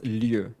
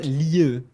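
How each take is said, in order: First: "lieu" as "lyuh", rounded French vowel; correct French ending. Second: "lieu" overdone and falling, the wrong way; wrong ending demo. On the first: Teacher correcting the ending, French "lieu". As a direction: glide "lieu" in one syllable. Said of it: "like it's lieu". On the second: Teacher imitating the struggle, wrong "lieu". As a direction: exaggerate the faulty "lieu". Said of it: "It's not lieu". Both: Shown as a demonstration.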